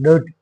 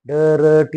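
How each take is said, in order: First: The r sound is silent. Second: The r sound is clearly pronounced. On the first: The speaker calls it right. "रचा silent उच्चार आपल्याला करायचा आहे" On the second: The speaker calls it wrong. "डरटी असं नाही म्हणायचं"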